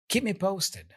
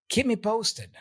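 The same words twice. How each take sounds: Both takes have the same delivery.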